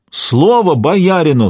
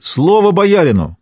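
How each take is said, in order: First: Slower, drawn-out repeat of the high, loud cry on Слово; ringing call, even slower. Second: Ringing call. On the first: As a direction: hold the repeat longer, begging. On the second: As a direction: call out Слово боярину as a plea to be heard. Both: A narrator's reading. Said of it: "звонко выкликивая".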